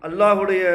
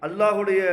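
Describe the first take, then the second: No difference in how they are said.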